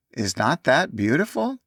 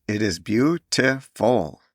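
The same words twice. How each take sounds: First: Joyful. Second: "beautiful" said slowly, each of its three syllables spelled out; deliberate syllables. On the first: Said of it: "cried out loudly and joyfully". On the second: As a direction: lay out "beautiful" syllable by syllable, carefully. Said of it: "pronouncing the three syllables with deliberate accuracy". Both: A narrator's reading.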